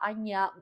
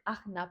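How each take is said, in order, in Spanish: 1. La consonante del medio es un sonido 'ny' suave. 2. La consonante del medio es un sonido 'j' fuerte. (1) "se pronuncia Agya, Aña" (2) "No es Ajna"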